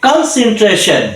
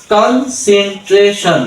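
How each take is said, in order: First: "কনসেন্ট্রেশন" whole, pitched up then falling; একবারে উচ্চারণ. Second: "কনসেন্ট্রেশন" in slow separate syllables; ভেঙে ভেঙে উচ্চারণ. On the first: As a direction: say "কনসেন্ট্রেশন" in one unbroken go. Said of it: "আমরা একবারে বলবো". ("কনসেন্ট্রেশন" একবারে টানা উচ্চারণ) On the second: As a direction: sound out "কনসেন্ট্রেশন" piece by piece. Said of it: "এইভাবে syllable ভেঙে ভেঙে". ("কনসেন্ট্রেশন" syllable ভেঙে ধীরে ধীরে) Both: Shown as a demonstration.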